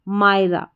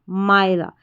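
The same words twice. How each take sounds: Both takes have the same delivery.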